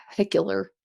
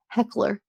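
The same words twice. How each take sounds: First: "Heckler" with a y-glide, like "heck-yler"; "Heckler" said "heck-yler", Jersey style; Jersey-tinged heckler. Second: "Heckler" said clean as "heck-ler", no glide; "Heckler" set right, plain American; corrected heckler. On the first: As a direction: say "Heckler" the Jersey way, a y slipping in after the k. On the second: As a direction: fix it: "Heckler", two crisp syllables. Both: Shown as a demonstration. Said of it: "why am I saying it like that?".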